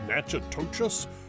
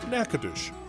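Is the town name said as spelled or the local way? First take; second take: as spelled; local way. First: The name is sounded out as it is spelled. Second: The name is said in the local way. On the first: This is how an outsider reading the name would guess it. "It looks like, I don't know" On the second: This is how people who live there say it. "locals pronounce the name of their town"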